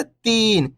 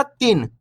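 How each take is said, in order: First: Long, stretched "तीन"; "तीन" with a sustained long ई; drawn-out vowel. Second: Quick, short "तीन", like tin; "तीन" said with a brief छोटी ई; short vowel. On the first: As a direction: hold the ee in "तीन". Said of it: "इसी प्रकार से पढ़ना आपको". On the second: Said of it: "ऐसे नहीं पढ़ना". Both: Shown as a demonstration.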